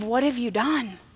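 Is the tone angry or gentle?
gentle. It is said in a gentle, calm tone.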